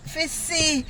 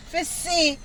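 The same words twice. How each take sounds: The two takes are said the same way.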